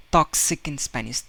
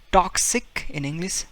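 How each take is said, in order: First: Spanish-style toxic. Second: Toxic with aspirated English t; English-style toxic. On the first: Teacher contrasting Spanish toxic with English. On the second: Teacher contrasting English toxic with Spanish. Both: Shown as a demonstration.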